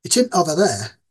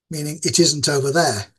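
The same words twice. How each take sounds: First: "isn't" squeezed to "int", no middle syllable; clipped Yorkshire abbreviation. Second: Said in the usual way. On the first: Shown as a demonstration. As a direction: say "It isn't over there" with "isn't" swallowed to "int". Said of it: "So I'd be saying things like".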